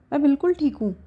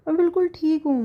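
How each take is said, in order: First: बिल्कुल pushed a bit higher and louder, falling; insistent. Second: बिल्कुल lifted high, falling to a stubborn end; stubborn insistence. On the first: Wife insists to husband she is fine, stubborn. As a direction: insist on बिल्कुल, brushing off worry. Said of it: "एकदम तपाक से बोल पड़ती है". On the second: Wife sulks to husband, insisting she is fine. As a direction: hit बिल्कुल high, sulky and firm. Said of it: "नाक सिकोड़ते हुए बोलती है". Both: Acted.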